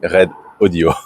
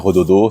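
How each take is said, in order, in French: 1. Le nom se dit en deux mots séparés. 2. Le nom se dit en un seul mot. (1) "ça se dit Red Audio" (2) "Ça se dit pas Rododo"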